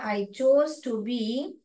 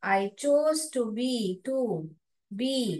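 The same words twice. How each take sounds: First: Slow, chose stressed; slow model reading. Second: Slow and careful; slow model reading. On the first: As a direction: read slowly for class. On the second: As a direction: read it out slowly. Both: Shown as a demonstration. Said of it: "model reading". (धीरे पढ़ना)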